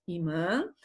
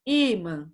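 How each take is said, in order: First: "imã" read as i-MÃ; stress on final Ã. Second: "imã" read as Í-mã; stress on first I. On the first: Teacher warning against misreading, "imã" stressed on the last syllable. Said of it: "Pra não lermos imã". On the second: Teacher confirming the accented vowel, "imã" stressed on i. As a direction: hit the "i" of "imã", let "mã" fall. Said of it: "põe um acento no I". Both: Shown as a demonstration.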